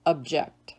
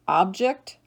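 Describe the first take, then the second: First: Ub-JECT, second syllable stressed. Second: OB-ject, first syllable stressed, rising. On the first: Teacher giving other pronunciation, object as ub-JECT. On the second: Teacher reading word list to students, object as OB-ject. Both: Shown as a demonstration. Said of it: "give you both pronunciations".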